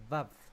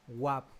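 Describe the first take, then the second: First: It begins with a V sound. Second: It begins with a W sound. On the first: "el uso tradicional de vav" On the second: "se pronuncia a veces como wa, wap o wow"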